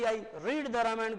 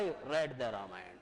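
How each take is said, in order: First: The vowel in 'read' sounds like in 'seed'. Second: The vowel in 'read' sounds like in 'bed'. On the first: The reading happens habitually in the present. "फर्स्ट form है तो रीड ही बोलूंगा" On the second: The reading happened in the past. "तब आपको बोलना पड़ेगा इसको रेड"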